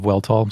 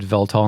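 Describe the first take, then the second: First: The name begins with a W sound. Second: The name begins with a V sound. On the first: The speaker calls it wrong. "instead of Weltal" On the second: The speaker calls it right. "before we said Veltal"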